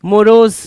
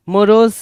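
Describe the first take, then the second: No difference in how they are said.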